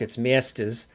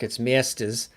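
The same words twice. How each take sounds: First: Masters is said in a New York accent. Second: Masters is said in a New York accent.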